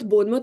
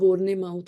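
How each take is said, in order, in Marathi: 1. हे नाव छोटं म्हणतात, जसं Bonmuth. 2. हे नाव पूर्ण म्हणतात, जसं Born-e-mouth. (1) "बोनमत बोनमत म्हणून म्हणायचंच नाही" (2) "लाईक स्पेलिंग जसं असतं तसं मी प्रोनाऊन्स करायचे"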